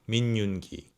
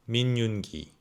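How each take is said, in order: No difference in how they are said.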